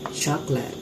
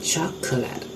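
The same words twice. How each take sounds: First: A middle vowel is dropped from the word. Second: Every syllable is pronounced in full. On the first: "After elision we pronounce it" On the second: "Next word is chocolate"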